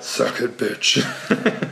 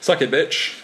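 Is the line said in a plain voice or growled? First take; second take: growled; plain. First: It is said in a low, growling voice. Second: It is said in a plain reading voice.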